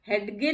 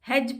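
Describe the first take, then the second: First: The d sound is pronounced before the g. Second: The d sound is silent before the g. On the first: The speaker calls it wrong. "हेडगे नहीं पढ़ते हैं" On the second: The speaker calls it right. "हेज पढ़ते हैं, क्योंकि इसमें भी जी से पहले डी है और ये साइलेंट है"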